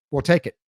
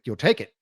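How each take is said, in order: First: "We'll take it" as a settled, simple statement; decisive statement. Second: "You'll take it?" rising at the end as a question; echoed question. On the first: Buyer's statement in retold exchange. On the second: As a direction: echo "You'll take it?" as if checking, tune going up. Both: Retold or imitated.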